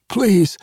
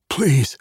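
First: "please" much higher and a bit louder, falling; the plea breaks upward in panic; desperate gasped plea. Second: "Please" gasped higher, falling off at the end; a first frightened gasp for mercy. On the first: Pinned barkeep begs again for his life, desperate and gasping. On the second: Pinned barkeep begs the swordsman, gasping in fear. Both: Acted. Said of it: "Harbinger gasped".

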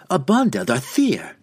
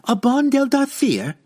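First: Loud, firm cry. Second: High, loud outraged cry. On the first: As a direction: call it out hard. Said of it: "Jeralus cried again". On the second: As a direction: shriek it back at him. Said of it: "she cried back". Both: Acted.

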